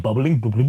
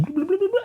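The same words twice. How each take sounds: First: Said in the usual way. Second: Bubbling said much higher, burbling like a fish tank; bubbling chirped very high as a bubble noise; imitating fish tank bubbles. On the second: Shown as a demonstration. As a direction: make the word bubbling sound like tank bubbles. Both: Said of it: "that bubbling noise".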